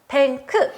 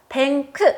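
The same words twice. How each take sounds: The two takes are said the same way.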